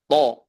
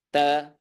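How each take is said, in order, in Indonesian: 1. Konsonannya berat, dengan vokal belakang yang dalam. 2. Konsonannya ringan, dengan vokal depan. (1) "harus ditebalkan secara sempurna" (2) "nggak boleh ta"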